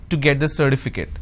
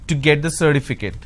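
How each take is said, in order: No difference in how they are said.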